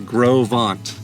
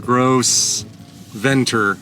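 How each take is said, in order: First: It is said the way local people say it. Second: It is read literally, the way it is spelled. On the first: This is how the locals say the name. The speaker calls it right. "she said it's uh, Gros Ventre, which was my guess" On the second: This is how a search engine voices the name. The speaker calls it wrong. "not how Google's saying"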